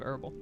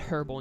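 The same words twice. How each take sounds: First: The word is said in an American way. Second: The word is said in a British way. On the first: The speaker calls it right. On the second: The speaker calls it wrong.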